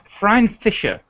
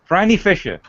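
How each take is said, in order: First: The first name does not rhyme with briny. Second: The first name rhymes with briny. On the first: The speaker calls it wrong. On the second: The speaker calls it right.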